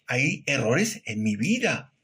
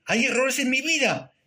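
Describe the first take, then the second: First: Said in the usual way. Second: "¿Hay errores en mi vida?" pitched high as a question; rhetorical question. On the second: Real, not acted. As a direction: ask "¿Hay errores en mi vida?" in a markedly raised voice, as if checking with listeners. Rhetorical question, answered "Claro que sí.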